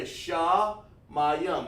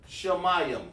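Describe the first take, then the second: First: SHAMAYIM slowly split, a break after SHA; broken-down word. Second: Said in the usual way. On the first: Shown as a demonstration. Teacher breaks SHAMAYIM down for students, slowly sounded out. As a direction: draw out SHA, then say MAYIM. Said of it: "break a word down for sound". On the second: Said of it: "So when we say shamayim".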